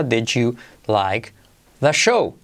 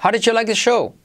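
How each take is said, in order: First: "did you" slowly as di-joo, then separated words; Y como J. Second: "did you" run together as didju, higher pitch; frase enlazada. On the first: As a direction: soften "did you" into a slow j sound. ("did you" lento, con sonido de J) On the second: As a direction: link "How did you like the show" at natural speed. ("did you" enlazado como "didyu", tono más agudo) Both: Shown as a demonstration. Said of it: "se convierte en G J".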